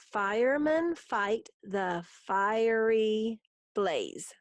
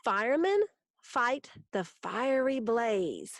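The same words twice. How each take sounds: First: Very slow, drawn-out beats for counting; syllable by syllable. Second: Said in the usual way. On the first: Shown as a demonstration. Teacher counting seven syllables in the haiku, syllable by syllable. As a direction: stretch each syllable so it can be counted. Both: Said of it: "That's seven".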